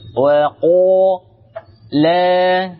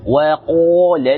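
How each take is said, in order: First: The final vowel of qala is held long. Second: The final vowel of qala is cut short. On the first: "La di sini panjang" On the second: "ketika bertemu alif lam atau hamzah wasal maka ini dibaca pendek"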